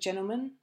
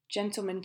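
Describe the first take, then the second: First: The t sound after n is left out. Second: The t sound after n is clearly pronounced.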